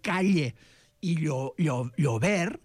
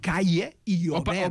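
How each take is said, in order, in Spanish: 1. La ll es un sonido lateral palatal. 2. La ll es un sonido parecido a la y. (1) "que es diu calle i llover" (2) "té una gran tendència a no saber pronunciar la lateral palatal"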